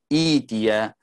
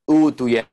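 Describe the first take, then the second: First: The word starts with an i vowel. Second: The word starts with a u vowel. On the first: The speaker calls it right. "kita mulai dengan kasrah" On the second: The speaker calls it wrong.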